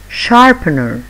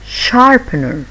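First: Said in the usual way. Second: Slow sharpener. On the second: Shown as a demonstration. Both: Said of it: "listen and repeat after me".

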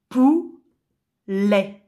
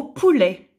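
First: "poulet" split by a long pause, pou... let; syllable by syllable. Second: Said in the usual way. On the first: Shown as a demonstration. Teacher showing pupils the syllables, "poulet" syllable by syllable. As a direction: break "poulet" into two separate beats. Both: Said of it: "Si je supprime la première syllabe".

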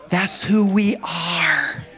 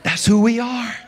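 First: Preaching slow. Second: Higher, louder, quicker repeat; preaching shout. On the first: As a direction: stretch each word from the pulpit. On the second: Preacher repeating to his church, louder and quicker. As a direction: punch it back at the congregation. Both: Real, not acted.

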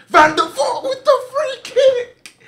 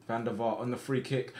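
First: Extremely high, loud, stretched-out goal scream; ecstatic scream. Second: Said in the usual way. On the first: Real, not acted. Player sees Van der Vaart score a free kick, ecstatic scream. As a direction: shriek the goal call in pure joy.

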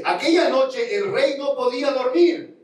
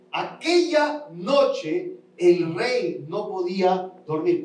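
First: Said in the usual way. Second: Stretched, slow reread; slow emphatic reread. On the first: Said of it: "Capítulo seis dice". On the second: Shown as a demonstration. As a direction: drag each word out to make it sink in. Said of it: "Quiero leértelo para explicarlo".

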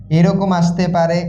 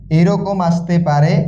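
The two takes are said the same way.

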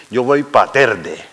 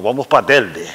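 First: "Telde" said as "Terde", slowly; slow "pa' Telde" as "pa Terde". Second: "Telde" with a clear L before the D; "pa' Telde" with L, no R; correct L. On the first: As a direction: put an R before the D in "Telde". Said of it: "con la R pa' Telde". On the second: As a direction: sound the L in "Telde". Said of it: "con la L". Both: Shown as a demonstration.

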